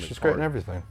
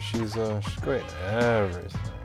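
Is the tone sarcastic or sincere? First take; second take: sincere; sarcastic. First: It is said in a plain, sincere tone. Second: It is said in a dry, sarcastic tone. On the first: She really is great. "did I say that sarcastically? No" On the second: She is not actually great. "take two sarcasm"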